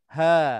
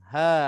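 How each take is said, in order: The two takes are said the same way.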